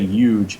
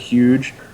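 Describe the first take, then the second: First: The word starts without an h sound. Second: The word starts with a clear h sound.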